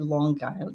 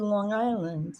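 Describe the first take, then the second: First: A hard G sound links the two words. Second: No hard G sound links the two words. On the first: The speaker calls it wrong. "I don't say Long Island" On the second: The speaker calls it right. "I just say Long Island"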